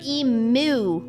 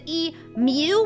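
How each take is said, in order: First: The second syllable has no 'y' sound: 'moo'. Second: The second syllable has a 'y' sound: 'myoo'.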